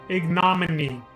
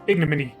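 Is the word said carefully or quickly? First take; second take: carefully; quickly. First: The word is said slowly and carefully. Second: The word is said fast and casually. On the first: "I'll just say it like that" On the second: "I tried to say it quick, like a cool guy"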